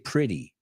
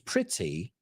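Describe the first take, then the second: First: The middle consonant sounds like a soft D. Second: The middle consonant is a crisp T. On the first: "we say pretty. We say the T's like a D" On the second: "los americanos no decimos pretty"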